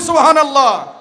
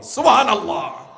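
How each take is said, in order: First: It is said more loudly. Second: It is said at normal loudness.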